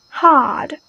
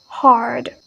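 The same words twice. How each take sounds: First: British "hard" without the R; "hard" with the R silent; British pronunciation. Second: American "hard" with a strong R; "hard" the American way, R pronounced; American pronunciation. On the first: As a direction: say "hard" as a long "hahd". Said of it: "British is totally omit that R". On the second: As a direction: say "hard" with the R clearly sounded before d. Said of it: "American is very emphasized on that". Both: Shown as a demonstration.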